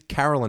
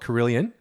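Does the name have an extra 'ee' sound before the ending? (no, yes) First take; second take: no; yes. First: No extra 'ee' sound comes before the ending. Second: An extra 'ee' sound comes before the ending. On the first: This is the actual name. The speaker calls it right. "There's no I in it" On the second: This is how many people say it. The speaker calls it wrong. "people call it Carillion"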